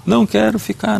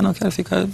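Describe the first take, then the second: First: A high, pleading child's wail, lightly acted; crying child. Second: Softer, high whimpering child's voice, lightly acted; crying child. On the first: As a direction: imitate a little boy begging through tears. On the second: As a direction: let the plea sink into a small sob. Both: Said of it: "Ele começou a chorar".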